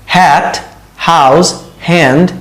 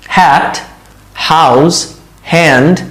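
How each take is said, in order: Both takes have the same delivery.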